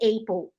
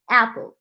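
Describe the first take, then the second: First: The first vowel is a gliding diphthong. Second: The first vowel is a plain single vowel. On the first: The speaker calls it wrong. "não pode ser apple" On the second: The speaker calls it right. "é waffle, apple"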